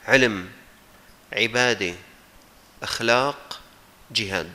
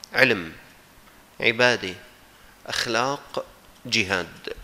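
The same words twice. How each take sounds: The two takes are said the same way.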